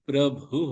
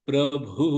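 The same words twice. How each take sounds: No difference in how they are said.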